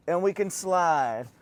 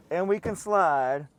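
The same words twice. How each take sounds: The two takes are said the same way.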